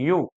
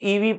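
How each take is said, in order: First: It begins with a 'y' consonant sound. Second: It begins with an 'ee' vowel sound. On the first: The speaker calls it right. "This is not ईवी, यू" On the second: The speaker calls it wrong. "अक्सर बच्चे इसको ईवी पढ़ते हैं"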